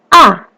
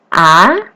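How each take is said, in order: First: The pitch falls sharply downward. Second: The pitch rises upward. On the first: "nada keempat itu turun, ditekan" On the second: "Nada yang kedua naik"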